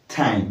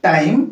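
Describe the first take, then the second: First: "ଟାଇମ୍" with a puff of air after T, lower and falling; aspirated T. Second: "ଟାଇମ୍" with a hard T and no puff, rising; unaspirated T. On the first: Teacher offering second option to learners, "ଟାଇମ୍" with aspirated T. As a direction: say "ଟାଇମ୍" as if spelt with ଠ. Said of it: "ଏଇ ଟ କୁ ଠ ଆକାରରେ". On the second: Teacher offering first option to learners, "ଟାଇମ୍" with unaspirated T. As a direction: say "ଟାଇମ୍" starting with a plain retroflex ଟ. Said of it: "ୟାକୁ କେମିତି ଉଚ୍ଚାରଣ କରିବା". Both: Shown as a demonstration.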